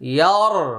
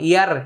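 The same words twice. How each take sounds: First: The r is pronounced heavy and full. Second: The r is pronounced light and thin. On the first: "এটা মোটা হলো" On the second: "ইয়ার পাতলা হয়ে গেল"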